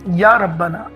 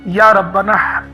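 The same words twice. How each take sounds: First: It is said warmly, with affection. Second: The same.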